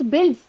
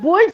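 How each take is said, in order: First: The vowel sounds like the one in 'bill'. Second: The vowel sounds like the one in 'bull'. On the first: The speaker calls it right. "It's builds" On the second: The speaker calls it wrong. "It's not bulls"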